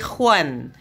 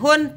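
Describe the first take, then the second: First: The ending has an 'e' glide, like 'uen'. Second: The ending is a plain 'un' sound. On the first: The speaker calls it right. "tapi huan" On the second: The speaker calls it wrong. "kalian tidak baca dengan hun"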